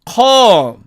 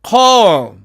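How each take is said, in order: The two takes are said the same way.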